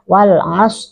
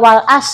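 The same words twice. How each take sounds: First: The 'as' begins with a throaty consonant. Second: The 'as' begins with a plain vowel. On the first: The speaker calls it right. "ain ya" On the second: The speaker calls it wrong. "masih banyak yang suka wal as gitu ya. Dibaca alif ya"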